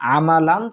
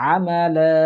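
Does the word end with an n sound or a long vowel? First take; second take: n sound; long vowel. First: The word ends with an n sound. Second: The word ends with a stretched vowel.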